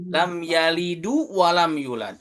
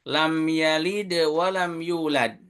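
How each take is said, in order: First: Yalid ends with an added vowel u sound. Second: Yalid ends on a bare consonant with no vowel. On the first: The speaker calls it wrong. "Tapi kita baca" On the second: The speaker calls it right. "Yalid itu sukun dan jadi qalqalah"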